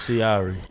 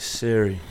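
First: The name is said as two parts, 'Sy Ari'. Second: The name is said as one word, 'Siri'. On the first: This is the name's real pronunciation. The speaker calls it right. "It's Sy Ari" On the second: This is how other people mispronounce the name. The speaker calls it wrong. "What's the worst that you heard?"

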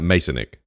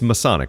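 First: The stress falls on the first syllable. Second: The stress falls on the second syllable. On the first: The speaker calls it wrong. "It's not Masonic" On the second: The speaker calls it right. "But it's Masonic, right?"

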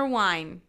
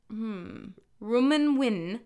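First: The word ends with a long 'wine' sound. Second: The word ends with a short 'win' sound. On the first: The speaker calls it right. "I think we got it now" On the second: The speaker calls it wrong. "I butchered it the first couple times"

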